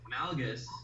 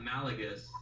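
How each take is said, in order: First: No vowel is heard between l and g. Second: An extra vowel is heard between l and g. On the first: The speaker calls it right. "It's Malgus" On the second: The speaker calls it wrong. "It's not Malagus"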